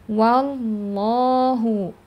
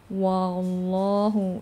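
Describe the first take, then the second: First: The opening 'wa' is thin and light. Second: The opening 'wa' is heavy and thick. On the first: The speaker calls it right. "wawnya jangan ikutan tebal" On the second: The speaker calls it wrong. "wa-nya jangan wallahu"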